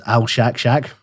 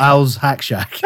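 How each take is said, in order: First: "Al Shack Shack" with a SH starting both last words; misread name. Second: "Al's Hack Shack" with a Z ending Al's and an H opening Hack; corrected name. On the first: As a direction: say "Al Shack Shack", the first SH run into the name. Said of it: "I read that as Al Shack Shack". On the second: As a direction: separate "Al's" from "Hack", sounding the H. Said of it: "Not, not Al's Hack Shack". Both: Shown as a demonstration.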